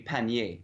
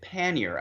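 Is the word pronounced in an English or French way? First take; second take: French; English. First: The word is said with French sounds. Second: The word is said with English sounds. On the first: "so in French it would be panier" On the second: "we pronounce it pannier, uh, and, and that is to say, with English phonetics"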